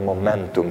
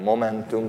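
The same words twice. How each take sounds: First: The stress is on the second syllable. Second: The stress is on the first syllable. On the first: The speaker calls it right. "hanem momentum, tehát a második szót kell hangsúlyozni" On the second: The speaker calls it wrong. "nem úgy kell mondani, hogy momentum, tehát nem az magyarok mindent az első szótagot hangsúlyoznak"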